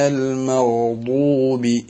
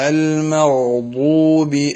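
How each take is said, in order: The two takes are said the same way.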